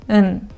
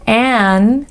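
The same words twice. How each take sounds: First: The vowel is short, weak and reduced. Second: The vowel is full and clearly pronounced.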